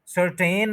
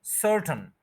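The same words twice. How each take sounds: First: सर्टेन with a drawn-out 'ten' ending; wrong full vowel. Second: सर्टेन as SUR-tn, first syllable stressed; corrected pronunciation. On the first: Teacher rejecting a form never heard, सर्टेन with full 'ten'. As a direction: sound the second vowel fully in सर्टेन, sur-TEN. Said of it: "नहीं आपने कभी सुना होगा". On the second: Teacher correcting learners, सर्टेन with reduced unstressed ending. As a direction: reduce the end of सर्टेन to a bare 'tn'. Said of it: "first syllable पे stress है". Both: Shown as a demonstration.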